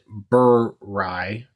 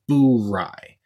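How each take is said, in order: First: The first syllable sounds like 'burr'. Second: The first syllable sounds like 'boo'. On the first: The speaker calls it wrong. "mistakenly pronounce it Burr Rye" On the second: The speaker calls it right. "it is pronounced Boo Rye"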